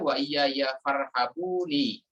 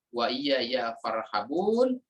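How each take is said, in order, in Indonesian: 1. Kata terakhir berakhir dengan vokal tambahan. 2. Kata terakhir berakhir dengan konsonan. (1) "ada qiraah lain yang membacanya" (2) "ada yang memang membacanya"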